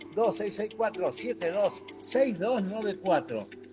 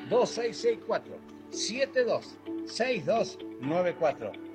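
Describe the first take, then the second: First: The number is said fast. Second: The number is said slowly.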